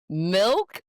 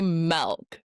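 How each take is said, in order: First: It is said in a standard accent. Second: It is said in a Michigan accent.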